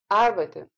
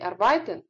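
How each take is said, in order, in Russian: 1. Ударение на первом слоге. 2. Ударение на втором слоге. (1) "Это слово произносится с ударением на первый слог" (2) "Не arbeiten"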